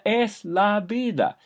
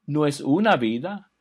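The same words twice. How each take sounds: First: La stressed, slowed, pitched high. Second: Una stressed as the contrast word. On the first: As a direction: hit "la" hard and slow in "es la vida". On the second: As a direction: lean on "una", then let vida fall. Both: Shown as a demonstration.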